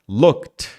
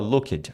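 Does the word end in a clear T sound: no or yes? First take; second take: yes; no. First: The word ends in a clear T sound. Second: The word does not end in a T sound. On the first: The speaker calls it right. "Você vai falar um som de T aqui. K T" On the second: The speaker calls it wrong. "Muita gente fala looked"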